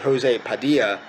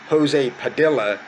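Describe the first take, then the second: First: The double L is sounded as a Y. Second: The double L is sounded as an L. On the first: "instead of" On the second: "pronouncing double L's as an L sound"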